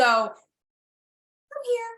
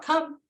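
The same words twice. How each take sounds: First: High sing-song "Come here" pitched way up; dog-centric voice. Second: A hint of a tired owner calling "Come"; mock nagging owner. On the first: Shown as a demonstration. Trainer showing the recall cue, high and sing-song. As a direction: make it all about the dog. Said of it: "that dog-centric voice". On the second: Owner calling a dog that ignores her, mildly mocked. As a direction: toss off a worn-out "Come". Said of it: "how many times do you say to your dog".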